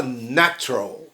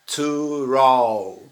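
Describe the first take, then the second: First: "natural" reduced to NA-tral, middle vowel dropped; two-syllable natural. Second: Slow "natural" with all three syllables sounded apart; "natural" spelt out slowly, syllable by syllable. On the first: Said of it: "quando a gente pronuncia". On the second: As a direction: stretch out "natural" as na-tu-ral. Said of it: "essa palavra tem três sílabas". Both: Shown as a demonstration.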